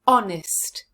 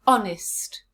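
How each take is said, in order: First: "Honest" with ON punched louder; stress on first syllable. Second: "Honest" said as ON-ist, H silent. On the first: Teacher answering where the stress falls, stressing ON. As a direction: hit the ON of "Honest". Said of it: "Where's the stress in this word?". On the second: Teacher modelling the blended word, silent H. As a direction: drop the H in "Honest". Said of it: "Now let's put them together". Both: Shown as a demonstration.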